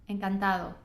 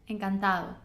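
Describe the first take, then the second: No difference in how they are said.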